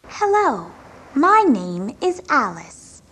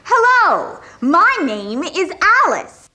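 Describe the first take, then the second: First: It is said quietly. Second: It is said loudly.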